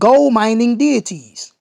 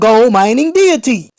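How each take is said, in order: First: It is read at normal loudness. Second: It is read noticeably louder.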